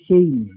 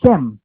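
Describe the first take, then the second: First: "Shem" said as "Shaym", with a long ey vowel; Hebrew-style "Shem", rhyming with "name"; Hebrew pronunciation. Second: "Shem" with sh and a short e; "Shem", sh then a simple e; Hebrew word as spelt. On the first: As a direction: draw the e of "Shem" into an ey glide. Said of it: "kapag ka pinronounce po niya sa Hebreo". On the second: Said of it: "sa salitang Hebreo po ay". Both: Shown as a demonstration.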